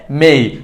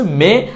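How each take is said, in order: First: মেই gliding into i; correct pronunciation. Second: মে on a plain e; wrong pronunciation. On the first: Teacher reviewing the correction, falling gliding মেই. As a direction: slide from e to i in মেই. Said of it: "সঠিক উচ্চারণটা হবে". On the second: Teacher reviewing the mistake, মে without a glide. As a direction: keep the vowel of মে pure. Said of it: "ভুল উচ্চারণটা হচ্ছে". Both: Shown as a demonstration.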